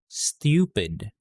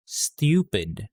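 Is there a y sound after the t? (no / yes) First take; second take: yes; yes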